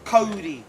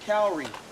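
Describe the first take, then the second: First: The word sounds like a fast 'Cody'. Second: The word does not sound like 'Cody'. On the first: The speaker calls it right. "Correctly pronounced Cody" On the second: The speaker calls it wrong. "commonly mispronounced"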